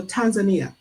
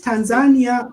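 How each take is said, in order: First: Tanzania stressed late, tan-za-NEE-a; Tanzania as tan-za-NEE-a, the second option; alternative pronunciation. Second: Tanzania stressed on the second syllable, tan-ZAN-ia; Tanzania as tan-ZAN-ya, offered as a question; alternative pronunciation. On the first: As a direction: say Tanzania with the weight on NI. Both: Shown as a demonstration. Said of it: "Is it Tanzania or Tanzania?".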